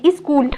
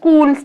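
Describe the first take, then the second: First: An extra 'i' vowel comes before the cluster. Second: The word starts directly on the consonant cluster. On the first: "ই এর সাহায্য নিচ্ছে" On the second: "যুক্তাক্ষর বলতে যেমন স্কুল"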